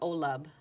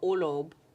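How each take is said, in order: First: The second vowel is more closed and rounded. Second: The second vowel is more open. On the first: The word has drifted through lazier speaking. The speaker calls it wrong. "everybody was saying Olub, which isn't too far from Olob, but it is a shift" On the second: The word keeps its original form. The speaker calls it right. "which isn't too far from Olob"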